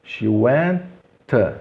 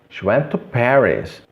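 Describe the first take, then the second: First: "went" and "to" apart, both T sounded; palavras separadas. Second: "went to" joined with a single T. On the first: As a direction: pause between "went" and "to". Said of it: "O mesmo caso aqui". ("went" e "to" separados) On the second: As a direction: run "went to" together as wen-to. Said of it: "eliminar esse T". ("went to" ligado, um único T) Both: Shown as a demonstration.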